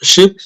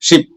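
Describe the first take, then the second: First: The word carries an extra added sound. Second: The word is said plainly without added sound. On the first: The speaker calls it wrong. "ആ ഷിപ്പ് എന്നുള്ള ശബ്ദം ഉണ്ടാക്കേണ്ട ആവശ്യമില്ല" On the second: The speaker calls it right. "ഷിപ്പ് എന്ന് മാത്രം പറഞ്ഞാൽ മതി"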